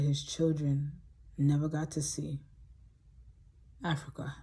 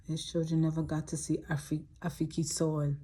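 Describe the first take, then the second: First: Said in the usual way. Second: "Afri-, Afiki soil" with Africa said as "Afiki"; imitating Cudjo's speech. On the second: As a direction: echo his learner's English, saying "Afiki soil". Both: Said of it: "He used to say it like that".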